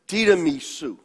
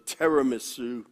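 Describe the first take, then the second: First: It is pronounced the Italian way. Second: It is pronounced the American way.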